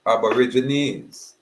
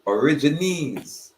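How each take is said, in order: First: "Aborigines" said slowly, with its opening "ab"; ABORIGINES, drawn out. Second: "Origines" said slow and higher, without the "ab"; corrected to ORIGINES. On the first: Speaker offers a stand-in word, "Aborigines" said slowly in full. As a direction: stretch out "Aborigines", keeping the first syllable. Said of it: "for lack of a better word". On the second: Speaker gives the corrected term, "Origines" slow and raised. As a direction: stretch out "Origines", starting on "or", pitch lifted. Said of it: "corrected term". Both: Shown as a demonstration.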